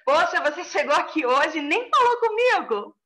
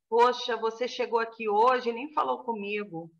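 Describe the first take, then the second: First: It is said in a bright, upbeat mood. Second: It is said in a low, downcast mood. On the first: "Já para cima" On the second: "Eu tô para baixo"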